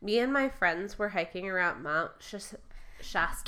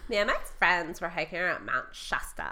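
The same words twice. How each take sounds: First: It is read in an ordinary, plain accent. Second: It is spoken in a put-on California accent.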